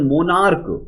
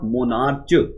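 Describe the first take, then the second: First: The word ends with a k sound. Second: The word ends with a ch sound. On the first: The speaker calls it right. "We pronounce this one monarch" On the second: The speaker calls it wrong. "It's not monarch"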